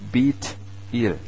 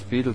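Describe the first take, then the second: First: The name is split into Beth and El. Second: The name is run together as one word. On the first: The speaker calls it right. "aber es ist Bethel. Beth das Haus und El ist Gott" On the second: The speaker calls it wrong. "das wird in Deutschland zwar immer wieder als Bethel so"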